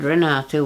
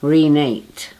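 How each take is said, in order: First: The name ends with an open 'ah' vowel. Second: The name ends rhyming with 'late'. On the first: The speaker calls it right. "which was right, which I, was my correct pronunciation" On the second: The speaker calls it wrong. "they would pronounce my name like relate"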